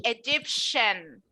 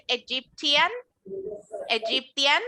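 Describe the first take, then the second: First: Egyptian said as e-gyp-shan. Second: Egyptian said with a clear t and an i, e-gyp-ti-an; wrong Egyptian with T. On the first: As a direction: Egyptian with sh in place of t. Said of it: "I'm going to say". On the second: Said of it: "No voy a decir". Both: Shown as a demonstration.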